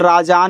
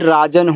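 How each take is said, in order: First: The second vowel is long, 'raajaan'. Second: The second vowel is short, 'raajan'. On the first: The speaker calls it wrong. "अगर ए से जा पे मात्रा लगा दोगे तो राजान हो जाएगा" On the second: The speaker calls it right. "जो कि राजान नाम नहीं राजन होता है"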